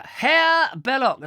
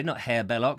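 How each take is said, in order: First: High, loud, stretched German-style name; mock German. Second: Said in the usual way. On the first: Presenter misnaming an author, mock German accent. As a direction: announce the name with a German flourish. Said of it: "He's not German". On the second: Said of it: "Sorry, not Herr Belloc".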